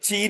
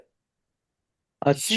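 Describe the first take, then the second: First: The word begins with a ch sound. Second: The word begins with a sh sound. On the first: The speaker calls it wrong. "ये ची नहीं बोला जाता है" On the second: The speaker calls it right. "Original pronunciation जो है वो शी है"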